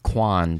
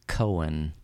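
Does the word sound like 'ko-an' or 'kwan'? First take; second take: kwan; ko-an. First: The word sounds like 'kwan'. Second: The word sounds like 'ko-an'. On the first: The speaker calls it wrong. "I was saying it quan" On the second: The speaker calls it right. "but it's actually a koan"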